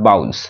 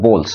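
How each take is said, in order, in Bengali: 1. স্বরধ্বনিটি 'ow'-এর মতো শোনায়। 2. স্বরধ্বনিটি 'oh'-এর মতো শোনায়। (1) "নট বাউলস" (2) "এটার উচ্চারণ হবে বোলস"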